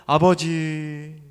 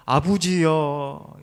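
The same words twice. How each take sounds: First: Said in the usual way. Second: 아부지여 drawn out slowly in Gyeongsang dialect, 부 for 버 and a trailing 여; slow, old-fashioned Gyeongsang call 아부지여. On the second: Shown as a demonstration. Preacher shows how old Gyeongsang folk called Father, Gyeongsang dialect. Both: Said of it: "경상도 사투리로는".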